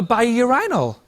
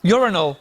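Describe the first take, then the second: First: Urinal said yoo-RYE-nal, stress on the long RYE; British urinal, second syllable like "eye"; British pronunciation. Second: Urinal said YOO-rin-al, stress on YOO, short middle; American pronunciation. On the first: Real, not acted. British guest saying urinal his own way, stress on RYE. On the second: Shown as a demonstration. Guest correcting himself for American audience, Urinal stressed first. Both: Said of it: "however you guys pronounce it".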